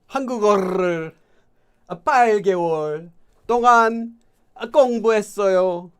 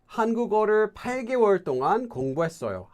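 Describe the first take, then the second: First: It is read in a put-on Italian accent. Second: It is read in a plain, normal accent. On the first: "would there be an Italian person that would speak Korean like that?" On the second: "Let me first do it normally"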